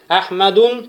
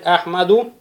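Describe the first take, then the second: First: The word ends in -un, with a final n. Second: The word ends in -u, with no final n. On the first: The speaker calls it wrong. "тоже будет ошибочным" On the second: The speaker calls it right. "будет правильно сказать"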